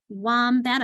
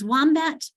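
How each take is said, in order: First: "wombat" slowly in two parts, "wom" then "bat"; split into syllables. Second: Said in the usual way. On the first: Shown as a demonstration. Teacher showing spelling by syllables, "wombat" slowly split in two. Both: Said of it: "I've got two syllables".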